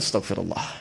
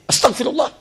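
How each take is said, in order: First: It is said slowly, as if savoring it. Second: It is said forcefully, as if spitting it out. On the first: The wrongdoing is being lingered over. The speaker calls it wrong. "Bukan antum makan" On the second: The wrongdoing is rejected at once. The speaker calls it right. "antum muntahkan"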